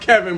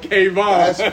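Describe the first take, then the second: First: The first syllable sounds like 'Kev'. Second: The first syllable sounds like 'Kay'. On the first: This is how the name is normally said. "His name Kevin" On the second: This is what locals in Atlanta call him. "down here, we call him K-apostrophe-V-O-N, Kayvon"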